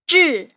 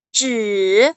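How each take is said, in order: First: It is said in the fourth tone. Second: It is said in the third, rising-falling tone. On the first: "nada keempat itu" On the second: "nada ketiga itu naik turun"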